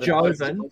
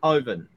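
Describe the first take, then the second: First: The name begins with a J sound. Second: The name begins with an H sound. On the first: The speaker calls it wrong. "It's not Joven" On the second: The speaker calls it right. "it's Hoven. ... Silent J"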